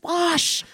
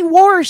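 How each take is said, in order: First: The word has no r sound before the sh. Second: The word has an r sound before the sh. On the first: The speaker calls it right. "it's wash" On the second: The speaker calls it wrong. "his mother would say warsh. And so he spelled it W-O-R-S-H"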